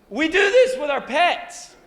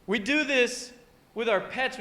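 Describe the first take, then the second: First: Put-on high, loud gushing baby talk; pet-talk voice. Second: Said in the usual way. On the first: Shown as a demonstration. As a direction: keep the overexcited doggy voice going. Carries on the pet-talk demo.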